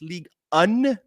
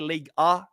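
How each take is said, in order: First: The second word ends with an n sound. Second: The second word ends in a vowel, no n. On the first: The speaker calls it right. "it's League Un with an N" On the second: The speaker calls it wrong. "I don't say League A"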